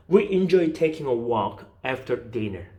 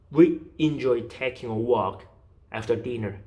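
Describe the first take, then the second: First: Said in the usual way. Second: "We enjoy taking a walk", pause, "after dinner"; slow model reading, break before "after dinner"; phrased in chunks. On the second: Shown as a demonstration. Teacher showing where to break by meaning units, chunked phrasing. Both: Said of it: "이렇게 끊어가시면 돼요".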